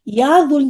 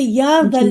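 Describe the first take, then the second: First: The second word has a 'u' vowel. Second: The second word has an 'a' vowel. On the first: The speaker calls it wrong. "कभी भी या दुल जलाली कहेंगे तो वो गलत है" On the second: The speaker calls it right. "या दल जलाली वल इकराम कहते हैं"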